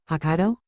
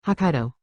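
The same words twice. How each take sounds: First: HOKKAIDO rising as a question; incredulous echo. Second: Said in the usual way. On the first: A narrator's reading. Drill instructor echoes the answer, questioning.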